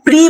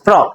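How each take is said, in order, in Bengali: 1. সিলেবলটি 'ee' স্বরধ্বনি দিয়ে উচ্চারিত হয়। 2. সিলেবলটি ছোট 'uh' স্বরধ্বনি দিয়ে উচ্চারিত হয়। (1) "পি আর ই প্রি বলি" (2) "প্রিটা এখানে প্র হচ্ছে"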